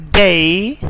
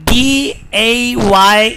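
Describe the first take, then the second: First: "day" with a gliding vowel; British pronunciation. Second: "day" with a pure "eh"; Pakistani pronunciation. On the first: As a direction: say day as "deh-ee". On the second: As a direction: say day as "deh", no glide. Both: Shown as a demonstration. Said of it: "is not day".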